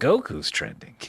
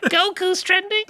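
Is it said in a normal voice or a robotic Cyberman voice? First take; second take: normal; Cyberman. First: It is said in his normal voice. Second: It is said in a robotic Cyberman voice.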